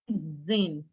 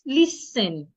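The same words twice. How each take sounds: First: The S is voiced as a Z sound. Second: The S is an unvoiced S sound. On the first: The speaker calls it wrong. "some people change the sound of the S to a Z. ... That is wrong" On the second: The speaker calls it right. "It's not listen. It's list, listen"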